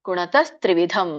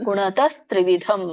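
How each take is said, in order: No difference in how they are said.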